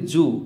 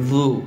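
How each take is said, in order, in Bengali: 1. ব্যঞ্জনটি সাধারণ z ধ্বনি। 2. ব্যঞ্জনটি জিভের ডগা দাঁতের সঙ্গে লাগিয়ে উচ্চারিত হয়। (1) "আউযু আমরা বলি জু, জু বললে হবে না" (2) "জিব্বার আগাটাকে সামনের উপরের দুই দাঁতের আগার সাথে লাগিয়ে বলতে হবে, এভাবে দেখুন"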